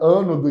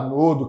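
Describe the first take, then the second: First: The stress falls on the first syllable. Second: The stress falls on the second syllable. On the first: "A forma correta seria ânodo" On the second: "mas a gente fala anodo"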